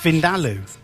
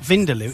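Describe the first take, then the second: First: The middle syllable da is stressed. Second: The middle syllable da is not stressed. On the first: The speaker calls it right. "The emphasis is on the da" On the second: The speaker calls it wrong. "it's not Vindaloo"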